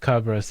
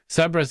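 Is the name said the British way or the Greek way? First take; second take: Greek; British. First: The name is said with a Greek pronunciation. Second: The name is said with a British pronunciation. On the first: "is more um, Greek" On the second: "is how we pronounce it in the U K"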